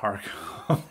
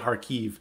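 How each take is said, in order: First: The name ends with an 'ov' sound. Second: The name ends with an 'eev' sound. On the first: This is the Russian form of the city name. "That's a Russian way of saying the city" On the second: This is the local Ukrainian form of the city name. "Or they'd say Kharkiv"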